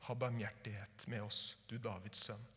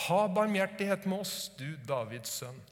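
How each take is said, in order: First: Soft, low, hushed plea; quiet plea. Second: Loud, high plea for mercy; crying out loud. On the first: Acted. Preacher quietly repeating the blind men's cry, hushed. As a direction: say it gently, inwardly. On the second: Retold or imitated. Blind men crying out to Jesus, loud plea. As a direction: call out the blind men's cry, loud. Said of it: "de ropte bare enda høyere".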